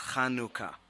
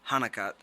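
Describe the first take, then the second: First: It is said with the Hebrew pronunciation. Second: It is said with the Americanized pronunciation. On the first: "it is pronounced in the Hebrew as Chanukah" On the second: "pronounced now as Hanukkah, ... stress is on the other part of the word"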